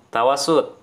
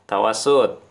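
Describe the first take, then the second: Both takes have the same delivery.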